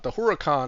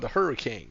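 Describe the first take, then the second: First: It is not said like English hurricane. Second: It is said like English hurricane. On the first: The speaker calls it right. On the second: The speaker calls it wrong.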